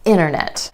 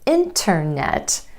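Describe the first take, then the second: First: The T after the N is dropped. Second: The T after the N is pronounced. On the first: "you'll hear a native speaker say internet" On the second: "instead of internet"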